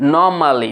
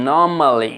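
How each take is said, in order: No difference in how they are said.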